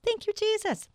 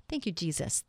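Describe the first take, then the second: First: Very high, singsong thanks; high little voice of gratitude; high-pitched praise. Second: Said in the usual way. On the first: Real, not acted. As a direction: lift the thanks right up high.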